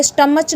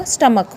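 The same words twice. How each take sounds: First: स्टमच ending in a CH sound; wrong pronunciation. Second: स्टमक ending in a hard K; correct pronunciation. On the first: Teacher quoting some children's mistake, CH mispronunciation. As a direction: say स्टमच as "stuh-match". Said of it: "स्टमच नहीं बोलते". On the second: Teacher correcting children's mistake, final K pronunciation. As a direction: say स्टमक as "stuh-muk". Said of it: "यहाँ पे होगा स्टमक". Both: Shown as a demonstration.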